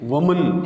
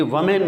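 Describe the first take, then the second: First: وومن as "wuh-mun"; short reduced ending in وومن; weak last vowel in وومن; correct woman. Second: وومین ending like "man"; full last vowel in وومین; mispronounced woman. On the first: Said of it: "یہ وومین نہیں ہے". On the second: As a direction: say "wo-main" for وومین. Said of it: "وومین نہیں ہے". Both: Shown as a demonstration.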